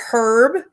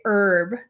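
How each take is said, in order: First: Herb said with a clear breathy H at the start. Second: Herb said as erb, dropping the H; herb with silent H. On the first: Asking viewers how they say it, herb with the H. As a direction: sound the H in herb. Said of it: "Do you guys say herb". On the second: Asking viewers how they say it, herb with silent H. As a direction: let herb start on the vowel. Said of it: "or do you say herb". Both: Shown as a demonstration.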